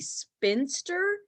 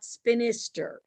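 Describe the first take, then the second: First: The word is said with two syllables. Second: The word is said with three syllables. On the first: The speaker calls it right. "the word is supposed to be spinster" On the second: The speaker calls it wrong. "not spinister"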